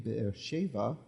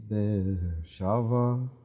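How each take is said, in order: First: The second word has a short 'e' vowel. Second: The second word has a lengthened 'a' vowel. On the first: The word is in its ordinary form. "this usually would be Be'er Sheva" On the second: The word ends a major phrase of the verse. "we're dealing with something that's in pausal form here"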